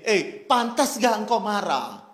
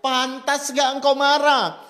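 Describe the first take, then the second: First: Said in the usual way. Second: Slow, higher and louder solemn question; preacher voicing God asking Jonah again. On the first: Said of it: "Lalu Tuhan bertanya gini". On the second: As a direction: press Jonah gravely. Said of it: "Kembali Tuhan bertanya".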